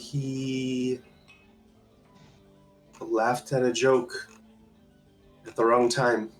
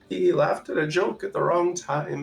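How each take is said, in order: First: It is said in the speaker's natural voice. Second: It is said in a put-on old woman's voice.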